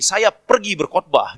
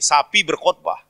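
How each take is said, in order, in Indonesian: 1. Setiap kata diucapkan penuh dan terpisah. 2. Dua kata pertama digabung jadi satu kata yang cepat.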